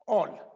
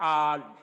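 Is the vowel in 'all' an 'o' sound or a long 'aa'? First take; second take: o; long aa. First: The vowel is a rounded 'o' sound. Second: The vowel is a long open 'aa' sound. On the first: The speaker calls it wrong. "यानी ओ से बोलते हैं ऑल" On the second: The speaker calls it right. "ये शब्द है आल"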